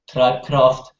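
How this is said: The name is pronounced the German way. "if pronounced in German"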